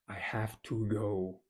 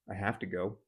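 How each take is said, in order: First: Each word of 'have to' is said fully and clearly. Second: 'Have to' is reduced and run together quickly. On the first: The speaker calls it wrong. "Doesn't really sound supernatural, like it's fine" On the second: The speaker calls it right. "that sounds way more natural, way more uh, colloquial"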